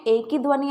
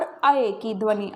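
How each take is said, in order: First: ए said as one pure long "e"; ए as in एडी, one unbroken vowel; ए vowel sound. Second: अए said as a glide from "a" into "e"; अए as in ऐनक, a two-part vowel; अए vowel sound. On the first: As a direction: say ए as a single steady vowel, like "ay" without a glide. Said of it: "उसमें ए की ध्वनि आती थी". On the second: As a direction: open अए on "a" and slide to "e". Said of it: "यहाँ पर अए की ध्वनि आएगी". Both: Shown as a demonstration.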